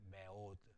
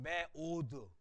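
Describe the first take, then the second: First: "매오드" low and soft, with a weak first vowel "매"; one-syllable Hebrew reading. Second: "매오드" slow, with "매" as a full syllable; Korean two-syllable reading. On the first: Teacher models the Hebrew word, "매오드" with faint shewa. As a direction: keep "매" light, leaning into "오드". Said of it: "모음이 아니니까 원음절, 한음절이죠". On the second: Teacher contrasts Korean reading, "매오드" fully sounded. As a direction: give "매" and "오드" equal full voice. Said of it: "우리나라 발음은 매오드, 두 음절이잖아요". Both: Shown as a demonstration.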